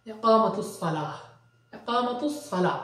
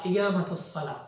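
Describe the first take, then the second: First: ইকামাতুস সালাহ with a classical q, drawn-out aa; fusha pronunciation. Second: ইকামাতুস সালাহ with g in place of k; regional g pronunciation. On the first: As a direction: model ইকামাতুস সালাহ as i-QAA-ma-tus sa-LAAH. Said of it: "ফুসহা লুগাতে উচ্চারণ করেন". (ফুসহা উচ্চারণে ক্বাফ দিয়ে ইকামাতুস সালাহ) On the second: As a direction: say ইকামাতুস as i-GAA-ma-tus. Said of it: "এরকম উচ্চারণ করতে পারেন". (ইকামাতুস সালাহ, ক-এর জায়গায় গ দিয়ে) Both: Shown as a demonstration.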